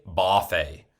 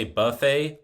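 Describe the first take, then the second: First: BUFFET said "BAH-fay"; buffet with an open "ah" first vowel; northern pronunciation. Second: BUFFET said "buh-FAY"; buffet as "buhf-ay"; northern pronunciation. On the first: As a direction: say buffet as "boff-ay". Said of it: "That's how they say it". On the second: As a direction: say buffet with an "uh" first vowel. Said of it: "you wanna know how they say". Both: Retold or imitated.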